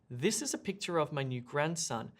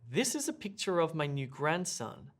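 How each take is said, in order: Both takes have the same delivery.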